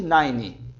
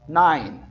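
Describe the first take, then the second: First: "nine" as "naini" with extra vowel; wrong nine. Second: "Nine" short, ending on n; correct nine. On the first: Teacher warns against wrong nine, extra vowel. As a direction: end "nine" on an added i. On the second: Teacher gives the correct nine after the wrong one. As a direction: clip "Nine" with no vowel after. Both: Shown as a demonstration. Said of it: "Nada de nine".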